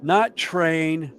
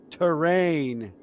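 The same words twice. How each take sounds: First: "train" said as one plain syllable; "train", not "terrain". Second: "terrain" with the first syllable kept, ter-rain. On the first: Correcting a friend, saying train plainly. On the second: Correcting a friend, stressing terrain slowly. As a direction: stretch out "terrain", two clear syllables. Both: Shown as a demonstration.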